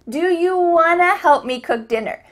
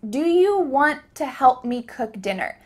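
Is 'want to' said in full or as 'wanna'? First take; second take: wanna; full. First: The words 'want to' are reduced to 'wanna'. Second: The words 'want to' are said in full. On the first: "But this question actually sounded like, do you wanna help me cook dinner? Want to often changes to wanna" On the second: "You just heard me ask"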